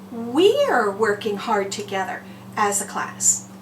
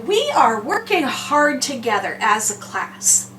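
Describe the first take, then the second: First: The words are shortened into one syllable 'we're'. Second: The two words 'we are' are said separately. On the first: "I can shorten that up" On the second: "I can say we are working hard together as a class"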